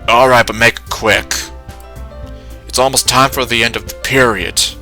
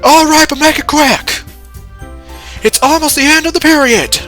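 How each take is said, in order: First: It is said in the speaker's ordinary voice. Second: It is said in a put-on coach voice.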